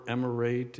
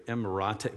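First: "emirate" ending in an English-style "rayd"; attempted pronunciation. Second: "emirate" said em-uh-RAH-tay; tentative French-style "emirate", with "ah-tay" at the end; French-style attempt. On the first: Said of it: "it's em-, emir". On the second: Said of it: "but it's French". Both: Shown as a demonstration.

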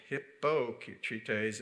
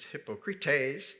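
First: "Hippocrates" stressed on its second syllable. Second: "Hippocrates" with the weight on its final syllable; stress on last syllable. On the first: Preacher showing the mistaken Greek stress, "Hippocrates" stressed on the second syllable. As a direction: say "Hippocrates" as hip-POK-ra-tays, not stressing the end. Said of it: "emphasis on the last syllable rather than". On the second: Preacher showing the Greek word, "Hippocrates" stressed on the last syllable. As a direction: say "Hippocrates" as hip-o-kri-TAYS, drawn out. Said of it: "put the emphasis on the last syllable".

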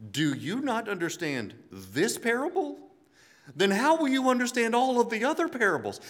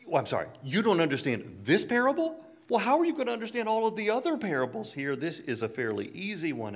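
First: Higher, louder, incredulous; disbelieving, rising to an almost shouted question; exasperated Jesus. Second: Higher and fast, incredulous; Jesus baffled at his disciples, fast and incredulous; exasperated Jesus. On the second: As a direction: rattle off the disbelief, pitch climbing. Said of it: "Jesus looks at the disciples and like". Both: Retold or imitated.

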